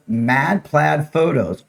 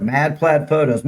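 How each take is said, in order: First: Each word spaced out slowly; slow, careful. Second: Said in the usual way. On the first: Real, not acted. Giving viewers a Facebook address, slow and careful.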